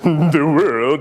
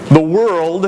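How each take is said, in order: First: It is said in a grand, dramatic way. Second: It is said in a plain, ordinary way.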